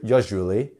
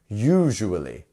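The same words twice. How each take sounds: First: The first vowel is clipped short. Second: The first vowel is drawn out long. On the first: The speaker calls it wrong. "It's not a quick u" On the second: The speaker calls it right. "we also have our lengthened vowel here"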